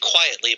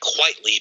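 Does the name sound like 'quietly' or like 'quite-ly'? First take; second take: quietly; quite-ly. First: The name sounds like the word 'quietly'. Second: The name sounds like 'quite' plus 'ly'. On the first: The speaker calls it wrong. "I always say quietly" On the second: The speaker calls it right. "but it's supposed to be Frank Quitely"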